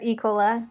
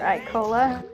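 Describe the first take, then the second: First: The name is pronounced the French way. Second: The name is pronounced the plain English way.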